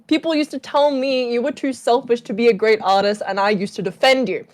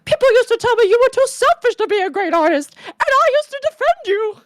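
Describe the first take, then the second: First: It is said in a normal speaking voice. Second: It is said in a Mickey Mouse voice.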